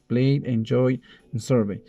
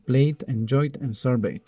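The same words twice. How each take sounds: First: "Played, enjoyed, and surveyed" said without the final -ed sounds; "Played, enjoyed, and surveyed" pronounced as present-tense forms, endings left off; base forms without ED. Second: "Played, enjoyed, and surveyed" with final -ed said as a t sound; "Played, enjoyed, and surveyed" as past forms, each closed with a t; ED endings added. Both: Shown as a demonstration. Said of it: "Está simplemente aumentado E D".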